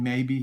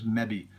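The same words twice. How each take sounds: First: The first vowel sounds like 'may'. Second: The first vowel sounds like 'meh'. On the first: "instead of saying maybe" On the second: "he goes maybe, M E B B E"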